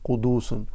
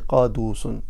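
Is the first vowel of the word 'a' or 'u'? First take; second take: u; a. First: The first vowel is an u sound. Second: The first vowel is an a sound. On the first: "you put a Dhamma on the Qaf" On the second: "you can also say it with a fatha"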